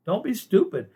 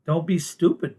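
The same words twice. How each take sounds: First: "Don't be stupid" again, higher and pushed hard; emphatic repeat. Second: Said in the usual way. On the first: Real, not acted. To viewers about ICE, emphatic scolding repeat. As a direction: hammer the warning home, pitch up on it.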